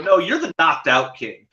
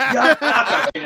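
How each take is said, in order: First: "Knocked Out King" with a clear break and weight on "Knocked Out"; stress on Knocked Out. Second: Higher, laughing boast of "Knockout King"; laughing mock fighter. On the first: Retold or imitated. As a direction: correct him by hitting "Knocked Out". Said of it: "I go". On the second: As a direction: imitate the fighter proudly insisting on "Knockout King". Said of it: "He goes".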